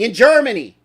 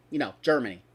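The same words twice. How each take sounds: First: Loud, pointed "Germany"; loud stress on "Germany", lifted and punched; emphatic Germany. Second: Said in the usual way. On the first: Real, not acted. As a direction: slam the word "Germany" to make the point.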